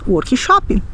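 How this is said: It is said with a Brazilian Portuguese pronunciation. "nós diremos"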